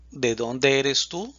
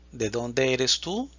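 Both takes have the same delivery.

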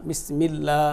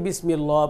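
First: "বিসমিল্লাহ" ending in a thin, open "laa"; correct Bismillah. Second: "বিসমিল্লাহ" with a rounded "lwa" ending; mispronounced Bismillah. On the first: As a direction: say "বিসমিল্লাহ" with a light l and long "a". ("বিসমিল্লাহ"-র লা পাতলা ও টেনে) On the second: ("বিসমিল্লাহ"-কে 'বিসমিল্লোয়া' বলে ভুল দেখানো) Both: Shown as a demonstration. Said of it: "এই পড়াটা কিন্তু ভুল".

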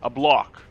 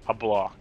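First: Loud word search. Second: Said in the usual way. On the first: Real, not acted. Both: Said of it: "I don't know what the word is".

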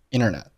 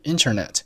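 First: Internet said as "innernet"; dropped t. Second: Said in the usual way. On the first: Shown as a demonstration. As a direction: leave out the first t of internet. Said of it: "通常可以不把t爆出来". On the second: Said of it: "所以internet就读成了internet".

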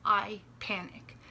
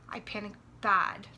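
First: Said in the usual way. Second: Bad pushed louder at the end of the phrase; stress on bad. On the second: Real, not acted. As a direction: lean hard on the word bad.

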